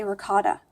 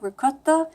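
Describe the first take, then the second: First: "ricotta" said carefully the common American way; careful standard pronunciation. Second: "ricotta" in an attempted heavy Italian accent; childhood Italian pronunciation. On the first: Consciously matching how people around her say it, careful American "ricotta". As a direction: say "ricotta" carefully, without Italian accent. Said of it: "turn on the Be Careful gene". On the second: Recalling her mom's heavy Italian accent, Italian-style "ricotta". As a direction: try "ricotta" as an Italian mother would. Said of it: "the way I used to say it". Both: Shown as a demonstration.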